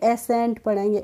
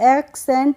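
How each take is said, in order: First: No k sound is heard before the s. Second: A k sound is heard before the s. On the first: The speaker calls it right. "सी का pronunciation नहीं किया है" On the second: The speaker calls it wrong. "एक्सेंट नहीं पढ़ते हैं"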